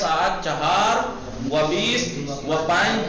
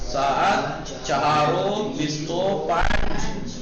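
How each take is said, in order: First: Each 'and' is a separate 'va'. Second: Each 'and' is a joined 'o' sound. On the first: "देखिए लिखा कैसे गया?" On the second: "लेकिन पढ़ा कैसे गया?"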